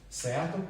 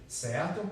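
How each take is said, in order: No difference in how they are said.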